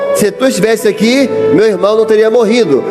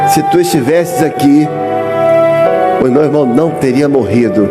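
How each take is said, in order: First: It is said in a doubting, questioning tone. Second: It is said in a pleading, tearful tone. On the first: The speaker doubts and questions. "falou meio que duvidando" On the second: The speaker pleads in humble devotion. "mas de joelhos... já chorando"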